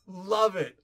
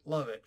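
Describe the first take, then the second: First: Louder love it. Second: Said in the usual way. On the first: Real, not acted. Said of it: "repeats reaction". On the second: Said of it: "repeated softer".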